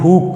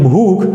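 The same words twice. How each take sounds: First: The final consonant is unaspirated, with no breath puff. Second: The final consonant is aspirated, with a breath puff. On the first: This is how speakers of another dialect say it. "ये प्रयोग करते हैं पहला, यानी भूख ... अल्पप्राण" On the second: This is the standard pronunciation. "हम कहते हैं भूख"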